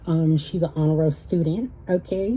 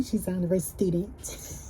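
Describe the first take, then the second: First: Said in the usual way. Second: Soft, breathy put-on voice for the brag; changed voice. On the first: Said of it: "why I changed my voice like that". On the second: Real, not acted. Bragging about her daughter, in a soft put-on voice. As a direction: hush the boast into a playful put-on voice. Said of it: "I changed my voice like that".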